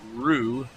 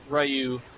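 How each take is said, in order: First: The name is said with a Japanese-style pronunciation. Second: The name is said with an English-style pronunciation.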